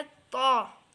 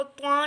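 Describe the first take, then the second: First: ता as one thick open sound, no w; correct heavy letter. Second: त्वा with a w glide after the t; wrong way with w. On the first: Teacher showing the correct letter, heavy and glide-free. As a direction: hold ता full, without any glide. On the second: Teacher showing learners what to avoid, w glide. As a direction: slip a w into त्वा. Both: Shown as a demonstration. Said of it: "इसको त्वा नहीं पढ़ना है".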